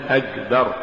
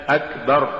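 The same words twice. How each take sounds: First: أكبر with a voiced g for the k; wrong g for k. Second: أكبر with a clear voiceless k; careful أكبر with a proper k; correct k sound. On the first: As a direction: demonstrate the error أكبر as agbar. (أكبر بالجاء بدل الكاف خطأً) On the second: (أكبر بكاف مهموسة) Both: Shown as a demonstration. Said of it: "تقرأ لحنا".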